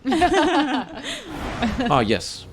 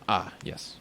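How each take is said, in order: First: It is said in a put-on character voice. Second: It is said in the speaker's ordinary voice. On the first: The speaker calls it right. "I should probably do a different voice" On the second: The speaker calls it wrong. "She sounds just like me"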